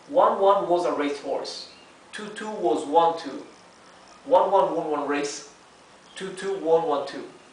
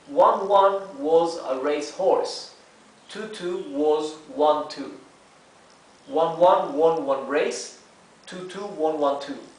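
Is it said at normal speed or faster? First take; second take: faster; normal. First: It is said a bit faster. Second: It is said at normal speed.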